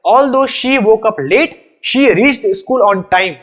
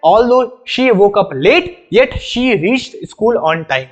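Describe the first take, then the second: First: Very slow, word-by-word reading of the test sentence; deliberate slow dictation, no yet; slow quiz sentence. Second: Very slow reading that puts yet after the pause; slow, deliberate model reading, yet spoken aloud. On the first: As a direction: read the sentence out slowly for students to judge. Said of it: "बता दो next वाला सही है या गलत है". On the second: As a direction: show how the comma is spoken as yet. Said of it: "तो पढ़ेंगे कैसे?". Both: Shown as a demonstration.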